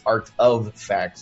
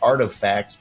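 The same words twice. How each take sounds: First: The words are said slowly as separate words. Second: The words are run together quickly into one. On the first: It is a play on the word artifacts. "but it's Art of Facts" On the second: It sounds like the word artifacts. "if you say it fast, it sounds like"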